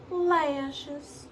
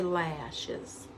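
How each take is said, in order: First: Lashes stretched out in a higher Southern Steel Magnolias accent. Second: Said in the usual way. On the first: Shown as a demonstration. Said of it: "I always go into Steel Magnolia's accent when I say lashes". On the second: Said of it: "I always go into Steel Magnolia's accent".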